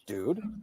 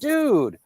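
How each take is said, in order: First: It sounds scared and frightened. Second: It sounds happy and pleased for someone.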